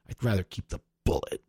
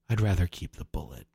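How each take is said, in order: First: It is said angrily, with spitting bitterness. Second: It is said evenly, in a controlled, resigned way. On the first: The speaker of the poem is furious. "I think I read it just pissed off... he's spitting at Henry" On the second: The speaker of the poem has given up. "you were more like... it's almost like he's resigned"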